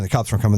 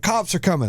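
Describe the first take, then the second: First: Said in the usual way. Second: High-pitched imitated warning; mock alarm call. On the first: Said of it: "someone's like". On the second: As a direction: pass the warning on in a higher voice. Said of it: "And someone's like".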